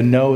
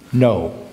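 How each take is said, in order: First: Said in the usual way. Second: "No" cut short with a firm tuck; emphatic no. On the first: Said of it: "just a simple stop". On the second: Shown as a demonstration. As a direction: snap "No" shut at the end. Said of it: "more emphatic".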